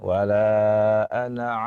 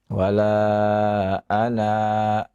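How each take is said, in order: First: The final vowel of ana is kept short. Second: The final vowel of ana is held long. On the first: The reciter joins it to the next words. "kalau kita baca wasal ... baca pendek" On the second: The reciter stops after this word. "dibaca dua harokat kalau kita wakafkan"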